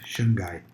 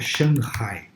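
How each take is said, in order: First: The name is said with Portuguese sounds. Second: The name is said with Chinese-like sounds. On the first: The speaker calls it wrong. "O pessoal fala, na verdade, fala assim" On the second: The speaker calls it right. "Mas o certo é"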